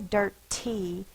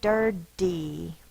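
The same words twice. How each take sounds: First: The middle consonant is a crisp T. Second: The middle consonant is a soft D-like tap. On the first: The speaker calls it wrong. "We don't tend to say dirty" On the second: The speaker calls it right. "We say dirty"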